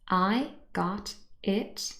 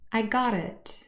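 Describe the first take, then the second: First: The t in got is a full stop. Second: The t is a quick flap joining into it.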